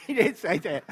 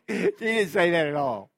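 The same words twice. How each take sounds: First: Laughing it off, a bit higher and louder. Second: 'didnt' pressed firm and louder, falling; stress on didn't. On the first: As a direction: giggle through 'She didn't say that'. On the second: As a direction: lean on 'didnt' to set it straight. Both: Real, not acted. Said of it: "I'm just kidding".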